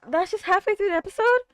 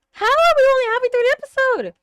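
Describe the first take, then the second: First: Said in the usual way. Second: High, loud and fast incredulous cry; disbelieving outcry. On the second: Real, not acted. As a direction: yell it at the screen in disbelief. Disbelief at episode length.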